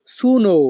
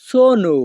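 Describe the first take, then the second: First: সুনো said with an u sound, wrong way; common wrong way. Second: সোনো with a clear o in both syllables; correct pronunciation. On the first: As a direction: say সুনো as the learners usually do. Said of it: "অনেকেই বেশিরভাগ সময়ে "আমি" এর উচ্চারণ করে থাকি". (ভুল উচ্চারণ সুনো) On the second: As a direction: say সোনো with round o sounds. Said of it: "এর সঠিক উচ্চারণ হবে". (সঠিক উচ্চারণ সোনো) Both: Shown as a demonstration.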